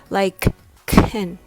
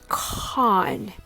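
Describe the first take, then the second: First: The syllable is small, short and weak. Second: The syllable is big, long and open. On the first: "It becomes smaller and weaker" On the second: "Open your mouth wider and say con"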